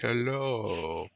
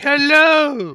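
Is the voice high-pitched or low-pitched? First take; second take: low-pitched; high-pitched. First: It is said in a low-pitched voice. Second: It is said in a high-pitched voice. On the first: "low English" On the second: "high English"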